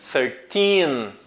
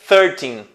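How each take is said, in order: First: The stress is on the second syllable. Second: The stress is on the first syllable. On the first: The speaker calls it right. "a sílaba a ser pronunciada mais forte vai ser a do teen" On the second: The speaker calls it wrong. "você não vai dizer thirteen"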